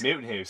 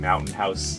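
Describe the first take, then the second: First: It is said in a thick Canadian accent. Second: It is said in a plain accent.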